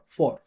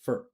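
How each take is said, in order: First: The syllable has a full, long vowel. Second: The syllable is short with a reduced vowel. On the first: The speaker calls it wrong. "you guys are gonna be obsessed with saying four" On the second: The speaker calls it right. "I'm just pronouncing f and er... as short as possible"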